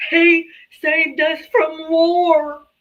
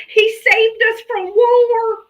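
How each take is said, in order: First: Slow, higher sneering parody; mocking voter. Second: High, slow, sneering mock voice; mocking voter. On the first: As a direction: stretch out the slogan with contempt. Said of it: "I'm like". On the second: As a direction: parrot the talking point scornfully. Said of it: "come up and say".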